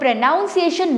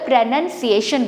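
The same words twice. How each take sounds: First: The second syllable sounds like 'noun'. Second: The second syllable sounds like 'nun'. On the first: The speaker calls it wrong. "ना बोलकर" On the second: The speaker calls it right. "बोले please"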